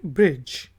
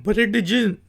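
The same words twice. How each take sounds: First: ब्रिज said as "brij", silent d; correct pronunciation. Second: ब्रिज said wrongly as "bereDij" with the d sounded; wrong pronunciation. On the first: Teacher giving learners the right form, silent d. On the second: Teacher demonstrating the common mistake to learners, d sounded. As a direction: pronounce ब्रिज wrong, sounding the d and an extra vowel. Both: Shown as a demonstration. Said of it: "इसको हम ब्रिज नहीं कहेंगे".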